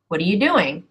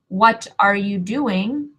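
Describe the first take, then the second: First: Only "doing" is stressed; the rest is reduced. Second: Every word gets equal, full stress. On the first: The speaker calls it right. "the stress part of that, to me, is the do" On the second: The speaker calls it wrong. "I don't ever say"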